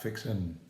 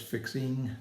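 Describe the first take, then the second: First: The word ends with a plain n sound. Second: The word ends with a full ng sound. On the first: The speaker calls it wrong. "not fixin'" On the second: The speaker calls it right. "There's a G at the end of the word"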